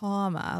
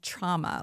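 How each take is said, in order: First: The first vowel sounds like an 'aw' sound. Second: The first vowel sounds like the one in drama. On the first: The speaker calls it right. "like with an A U" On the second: The speaker calls it wrong. "I say trauma, like drama"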